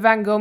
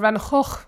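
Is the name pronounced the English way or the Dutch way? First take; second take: English; Dutch. First: The name is said with an English pronunciation. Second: The name is said with a Dutch pronunciation.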